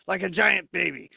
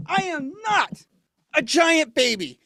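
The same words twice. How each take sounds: First: Said in the usual way. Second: Put-on louder, higher, like an offended toddler; indignant protest. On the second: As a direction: protest like a sulking giant baby. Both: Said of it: "Sounds like someone needs a nap".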